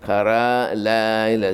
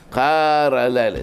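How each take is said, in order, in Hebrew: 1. המילה הראשונה מוטעמת בהברה האחרונה שלה. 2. המילה הראשונה מוטעמת בהברה הראשונה שלה. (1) "זה כבד מדי" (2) "זה נקרא מלא עין נסוג אחור"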